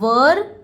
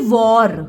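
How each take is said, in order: First: The vowel sounds like 'er'. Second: The vowel sounds like 'or'. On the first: The speaker calls it right. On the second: The speaker calls it wrong.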